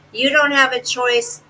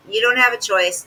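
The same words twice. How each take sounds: First: "don't" hit high and hard, firm scold; stress on don't. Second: "have" pressed with falling finish; stress on have. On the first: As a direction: lean on "don't", no arguing. Scolding her from video. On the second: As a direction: land on "have", close it flat. Repeats scolding, stress moved. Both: Real, not acted.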